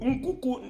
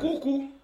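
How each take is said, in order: First: The name is said the Igbo way. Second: The name is said the standard way.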